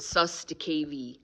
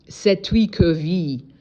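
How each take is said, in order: First: The first syllable sounds like 'suss'. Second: The first syllable sounds like 'set'. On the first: The speaker calls it wrong. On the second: The speaker calls it right.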